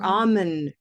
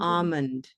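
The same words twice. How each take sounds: First: The word is said without a final D sound. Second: The word is said without an L sound. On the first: "without the D at the end" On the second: "Almond with no L"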